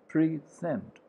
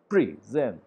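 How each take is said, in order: First: The stress is on the first syllable. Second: The same.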